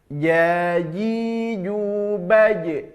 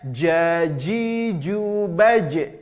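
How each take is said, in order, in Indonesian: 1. Bunyi j terdengar lembut, dari tengah lidah. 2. Bunyi j terdengar keras, dari ujung lidah. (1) "pertengahan lidah kita ke langit-langit atas" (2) "Kesalahannya ... Salah. Itu yang menempel ujung lidah kita"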